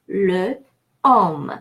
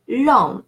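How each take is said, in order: First: The article keeps its vowel as a separate syllable. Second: The article's vowel drops, linking into one word. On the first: The speaker calls it wrong. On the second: The speaker calls it right.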